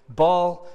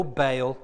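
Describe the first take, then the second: First: "Baal" said like "ball"; usual pronunciation. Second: "Baal" said like "bale"; alternative pronunciation. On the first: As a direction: say Baal with an open AW vowel. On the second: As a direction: say Baal with a long AY vowel. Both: Shown as a demonstration. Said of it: "or Baal".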